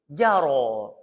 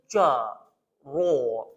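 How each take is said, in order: First: The first consonant is said with spread lips. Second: The first consonant is said with rounded lips. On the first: The speaker calls it right. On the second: The speaker calls it wrong.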